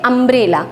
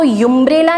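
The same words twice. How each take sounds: First: अम्ब्रेला said with an open "um" at the start; correct pronunciation. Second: युम्ब्रेला said with a "yu" sound at the start; wrong pronunciation. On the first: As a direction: say अम्ब्रेला as "um-brella". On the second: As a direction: say युम्ब्레ला as "yum-brella", the way it should not be said. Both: Shown as a demonstration. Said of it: "इसको युम्ब्रेला नहीं पढ़ते हैं".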